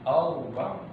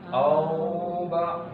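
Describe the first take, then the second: First: The 'au' sound is said quickly and short. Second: The 'au' sound is drawn out slowly. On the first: The speaker calls it right. "Dia lebih cepat" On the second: The speaker calls it wrong. "nggak boleh dibaca seperti itu"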